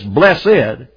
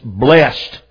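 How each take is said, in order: First: The word is said as two syllables. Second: The word is said as one syllable. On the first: It is an adjective describing a noun. "pronounced with two syllables as blessed" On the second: It is the past tense of a verb. "you pronounce it as blessed, one syllable"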